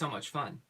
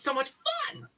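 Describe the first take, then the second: First: It is said flatly, without any enthusiasm. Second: It is said with loud, exaggerated enthusiasm. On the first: "It didn't sound like it was fun" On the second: "That's a little bit... too much"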